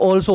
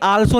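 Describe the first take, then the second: First: The first vowel is a rounded 'aw' sound. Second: The first vowel is an open 'aa' sound. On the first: The speaker calls it right. "ये ऑल्सो होता है" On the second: The speaker calls it wrong. "ये आल्सो नहीं होता"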